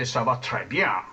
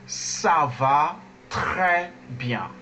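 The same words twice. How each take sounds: First: Mimicked American-accented French, low in pitch. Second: Slow model with a throaty French R in "très". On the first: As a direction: say très with an American R. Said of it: "They, they say". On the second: Shown as a demonstration. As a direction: draw out each word, rasping the R of "très" in the throat. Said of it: "Now we say".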